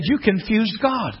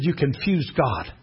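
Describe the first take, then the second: First: Slow, deliberate YOU CONFUSED GOD; emphatic repeat. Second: Low, slow and soft; hushed, lowered delivery; quiet revelation. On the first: Same line repeated after "What?. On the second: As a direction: imitate a gentle, measured pronouncement. Mother-in-law first delivers the line. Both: Retold or imitated.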